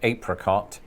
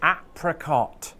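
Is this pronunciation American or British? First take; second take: British; American. First: It is said in a British pronunciation. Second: It is said in an American pronunciation. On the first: "my pronunciation of apricot" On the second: "the first time I heard an American say apricot"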